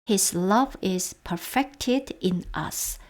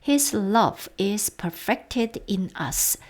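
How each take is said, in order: No difference in how they are said.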